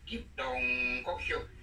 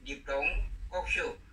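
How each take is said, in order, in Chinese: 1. 龙读第三声。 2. 龙不读第三声。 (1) "这个龙要练第三声" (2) "原播音"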